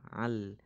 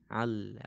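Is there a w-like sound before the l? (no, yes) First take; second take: no; no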